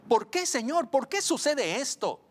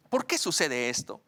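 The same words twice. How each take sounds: First: High-pitched, pleading question to God; súplica angustiada al Señor. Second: Said in the usual way. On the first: Acted. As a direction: cry out the question, pitched well up. Acts out questioning the Lord. (pregunta suplicante, en tono alto)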